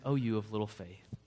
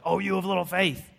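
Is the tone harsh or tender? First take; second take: tender; harsh. First: It sounds gentle and loving. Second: It sounds harsh and scolding.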